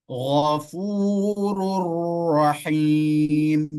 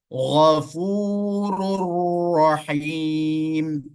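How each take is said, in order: The two takes are said the same way.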